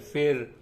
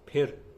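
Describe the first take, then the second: First: It begins with an f sound. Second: It begins with an aspirated p sound. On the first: The speaker calls it wrong. "बहुत लोग कई बार गलत बोलते हैं" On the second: The speaker calls it right. "Hindi में प फ फ है"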